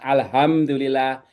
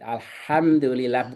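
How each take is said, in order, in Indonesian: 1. H-nya hanya hembusan napas ringan yang biasa. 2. H-nya dibuat dalam di tenggorokan. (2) "Karena ini H di tengah"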